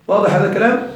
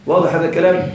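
The two takes are said the same way.

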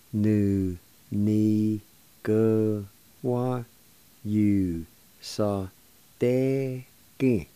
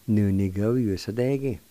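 First: "Nu, ni, gu, wa, yu, sa, de, gi." with a gap after each; syllable by syllable. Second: "Nu, ni, gu, yu, sa, de, gi." flowing as one word; joined-up pronunciation. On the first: Teacher introducing "Nu, ni, gu, wa, yu, sa, de, gi." to learners, syllable by syllable. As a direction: hold each syllable of "Nu, ni, gu, wa, yu, sa, de, gi." separately. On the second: Teacher giving learners the whole word "Nu, ni, gu, yu, sa, de, gi.", joined up. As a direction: run "Nu, ni, gu, yu, sa, de, gi." together without gaps.

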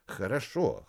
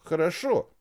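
First: Said in the usual way. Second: Louder hurried хорошо; hurried agreement. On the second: Acted. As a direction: blurt хорошо quickly to give in. (торопливо, громче) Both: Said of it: "торопливо закивал ботаник".

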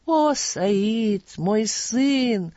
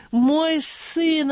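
First: Tearful. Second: Higher, louder tearful cry; tearful outburst. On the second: Father weeping over his lost son, crying out higher and louder. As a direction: break into a tearful wail on the repeat. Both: A narrator's reading. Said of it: "обливаясь слезами".

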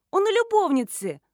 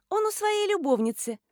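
First: High, loud insistence on "любовницы"; insistent repeat. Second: Put-on high, offhand girlish voice; teenage girl. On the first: Schoolgirl repeats for a deaf adult, insistent on "любовницы". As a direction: drive home "любовницы" as if to someone deaf. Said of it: "повторила девочка". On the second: Schoolgirl delivers the paid-for secret, offhand girlish voice. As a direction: toss out the secret lightly. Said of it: "школьница". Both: A narrator's reading.

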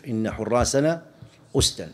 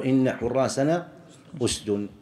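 First: "أسدا" ending in -an, "usdan"; accusative predicate. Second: "أسد" ending in -un, "usdun"; standard nominative ending. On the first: Teacher repeating the verse's rare usage, "أسدا" said "usdan". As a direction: end "أسدا" in -an. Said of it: "ينصب الجزئين". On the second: Teacher giving the common usage, "أسد" said "usdun". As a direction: end "أسد" clearly in -un. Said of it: "اللغة المشهورة أن يقول". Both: Shown as a demonstration.

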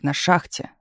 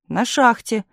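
First: Pouncing. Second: Higher-pitched answer; defensive. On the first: Chief repeating operator's answer, pouncing. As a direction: echo with a final rise. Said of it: "обрадовался начальник". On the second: Telegraph operator answering chief's accusation, defensive. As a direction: answer back in a raised pitch. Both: A narrator's reading.

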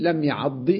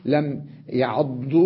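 First: لم يعض with the final ضاد given a short i vowel, يعضِّ; correct kasra ending. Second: لم يعض said slowly with the final ضاد given a u vowel, يعضُّ; slow wrong form لم يعض, final ضاد with damma; wrong damma ending, slowly. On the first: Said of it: "أو أقول". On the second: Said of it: "ولا أقول". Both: Shown as a demonstration.

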